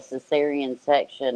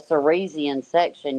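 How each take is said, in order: First: The word is pronounced in the standard way. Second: The word's sounds are jumbled into a garbled form. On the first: The speaker calls it right. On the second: The speaker calls it wrong.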